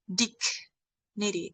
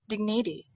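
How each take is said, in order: First: The first syllable is said without a nasal sound. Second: The first syllable is said with a nasal sound. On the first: The speaker calls it wrong. "it's not dignity" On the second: The speaker calls it right. "it's dignity, ding, nasal, nasal sound"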